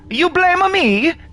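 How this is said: It is said with an Italian accent. "someone mentioned Italian"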